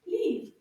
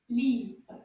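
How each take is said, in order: First: Livre said quickly and higher; a quicker Livre for the class; faster. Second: Said in the usual way. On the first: Shown as a demonstration. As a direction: clip Livre short and bright. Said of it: "And a little bit faster". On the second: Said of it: "a little bit faster".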